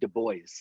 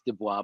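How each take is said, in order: First: The name is pronounced in a non-French style. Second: The name is pronounced in a French style. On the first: This is how the man himself said it. The speaker calls it right. "is how he pronounced it" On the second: This is how the spelling makes it look. The speaker calls it wrong. "His name looks like it's Dubois"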